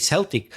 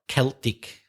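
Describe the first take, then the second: First: The word begins with an S sound. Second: The word begins with a K sound. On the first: It names a sports team. "When it's to do with sport, for some reason, we we say Celtic" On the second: It refers to the ancient people, not sport. "when it's not sport, you say Celt or Celtic"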